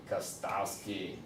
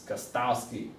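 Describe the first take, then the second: First: Kostowski said lower, softer and slowly, stretched out; drawn-out repeat. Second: Said in the usual way. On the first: Shown as a demonstration. Repeating the rookie kicker's name to the league, low and slow. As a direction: let Kostowski sink low and slow, savouring it.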